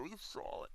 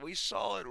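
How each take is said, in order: First: A broken whisper of "We saw it"; real whispered disbelief. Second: Said in the usual way. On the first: Real, not acted. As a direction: whisper it, voice gone. Anguished repeat of the same words.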